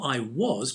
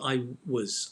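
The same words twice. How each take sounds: First: The word 'was' is said fully with a clear vowel. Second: The word 'was' is reduced with a weak vowel. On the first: The speaker calls it wrong. "not I was" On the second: The speaker calls it right. "So you make the weak form"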